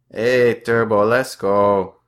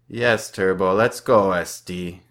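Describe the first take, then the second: First: Chanted, loud, slow, drawn-out taunt; "let's" stretched and called out in a chant; group taunt chant. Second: Taunting. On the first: French teammates ganging up on the narrator, slow loud chant. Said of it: "All six of them sit together and say". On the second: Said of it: "Alex says". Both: A narrator's reading.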